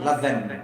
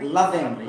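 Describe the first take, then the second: First: Loving said as lov-en; dropped G. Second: Loving with a full ing ending; careful ending. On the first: To the viewers, showing the native version. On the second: To the viewers, showing the careful version. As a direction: say Loving with the ng clear. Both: Shown as a demonstration. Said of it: "They will pronounce loving as loving".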